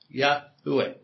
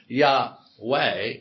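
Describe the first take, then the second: First: It has a faint middle syllable, three in all. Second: It is said with two syllables. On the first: The speaker calls it right. "With a very quiet U between a H and a W" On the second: The speaker calls it wrong. "It's not two syllables, it's actually three syllables. ... So it's not Yahweh"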